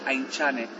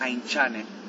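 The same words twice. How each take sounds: First: The middle consonant is a TS sound. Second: The middle consonant is a TX sound. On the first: "si sería TS sería Aintzane" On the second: "Y si sería TX"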